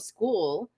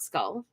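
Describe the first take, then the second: First: The vowel is long, like in 'school'. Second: The vowel is short, like in 'skull'. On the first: This is how the broadcast pronounced the name. "That's how they were pronouncing it" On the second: This is how it might be said in North America. "not Skull"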